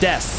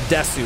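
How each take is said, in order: First: The final vowel is dropped, ending on s. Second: The final vowel u is fully pronounced. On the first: "you drop the U" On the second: "instead of desu"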